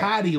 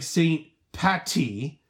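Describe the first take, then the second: First: The middle consonant is a d sound. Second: The middle consonant is a t sound. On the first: The speaker calls it right. "it's Patty, like P-A-D-D-Y" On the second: The speaker calls it wrong. "not like St. Patty, like a hamburger patty"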